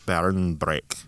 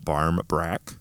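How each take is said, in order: First: The first word ends with an n sound. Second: The first word ends with an m sound. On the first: This is the Irish form of the name. "And then Irish, it's two separate words" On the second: This is the English form of the name. "One is barm with an M"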